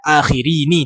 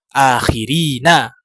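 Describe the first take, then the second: First: The word ends with an 'i' vowel. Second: The word ends with an 'a' vowel. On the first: The speaker calls it wrong. "jangan dibaca akhirini" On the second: The speaker calls it right.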